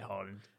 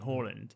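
First: The name is said with a British pronunciation. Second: The name is said with a Norwegian pronunciation. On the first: "But if you're British, just say Haaland" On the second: "If you're Norwegian"

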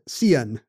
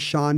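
First: The name is sounded out from its spelling. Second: The name is said as one syllable, Shawn. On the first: The speaker only knows the name from seeing it written. The speaker calls it wrong. "She pronounces it Sian" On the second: The speaker grew up hearing the name said aloud. The speaker calls it right. "We actually say Sean here"

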